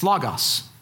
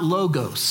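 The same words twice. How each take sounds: First: The o vowels sound like 'ah'. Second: The o vowels sound like 'oh'. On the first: The speaker calls it right. "Just in Greek, all the O's are A's" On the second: The speaker calls it wrong. "It's not logos"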